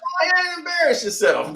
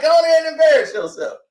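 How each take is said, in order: First: Dismissive. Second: Dismissive, faster and louder. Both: Retold or imitated. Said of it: "That's all I was like".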